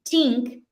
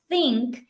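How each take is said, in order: First: The word begins with a plain 't' sound. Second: The word begins with a soft 'th' sound. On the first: The speaker calls it wrong. "if they say think instead of think" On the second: The speaker calls it right. "instead of think"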